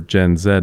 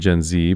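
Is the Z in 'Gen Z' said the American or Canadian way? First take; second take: Canadian; American. First: The letter Z is said the Canadian way. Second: The letter Z is said the American way. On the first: This is how it is said in Canada. "But in Canada, we're Gen Z" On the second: This is how it is said in America. "If we were in America, it would be Gen Z"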